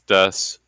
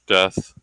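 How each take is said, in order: First: It ends in an 's' sound instead. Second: It ends in an English 'th' sound. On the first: "they do pronounce death as des" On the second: "the English death"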